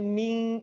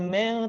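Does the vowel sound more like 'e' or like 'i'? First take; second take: i; e. First: The vowel is a full, clear 'i'. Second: The vowel is lowered, sounding like 'e'. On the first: The speaker calls it right. "bukan me tapi mi" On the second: The speaker calls it wrong. "vokal sering nggak sempurna kalau berhadapan dengan ikhfa"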